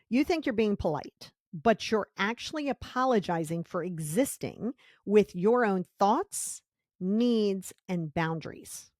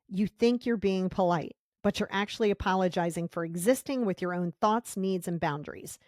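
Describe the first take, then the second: First: It is said slowly. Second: It is said at a normal pace.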